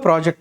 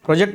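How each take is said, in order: First: The word has its noun pronunciation. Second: The word has its verb pronunciation. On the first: It names a thing. "ప్రాజెక్ట్ noun" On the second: It names an action of forecasting. "ప్రొజెక్ట్ verb"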